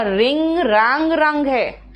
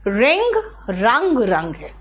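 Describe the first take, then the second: First: रिंग रंग रंग said slowly, each form apart; slow verb forms. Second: रिंग रंग रंग repeated slowly and lower; slow verb forms. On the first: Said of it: "ध्यान से देखना". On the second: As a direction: say रिंग रंग रंग again, slowly, dropping low. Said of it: "यहाँ पे डब्ल्यू silent है". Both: Shown as a demonstration.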